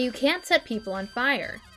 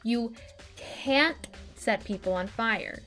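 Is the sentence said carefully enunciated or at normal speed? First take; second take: normal; enunciated. First: The sentence is said at a normal conversational pace. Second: Each word is said slowly and carefully articulated.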